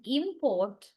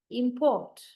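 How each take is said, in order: First: Import as a noun, IM-port, first syllable stressed. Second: Import as a verb, im-PORT, second syllable stressed. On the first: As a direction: draw out the IM in import. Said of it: "that is the noun". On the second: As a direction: lean on PORT in import, falling tone. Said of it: "that is the verb". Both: Shown as a demonstration.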